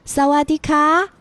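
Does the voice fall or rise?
rises. The voice rises, sounding feminine.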